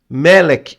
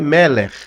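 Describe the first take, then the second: First: The word ends with a hard k sound. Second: The word ends with a raspy, dragged sound. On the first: The speaker calls it wrong. "algumas pessoas que falam Melek ... termina com K só, mas o correto não é K" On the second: The speaker calls it right. "R, é arrastado. Então, o correto é Meller"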